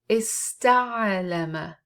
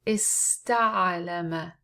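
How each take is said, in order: The two takes are said the same way.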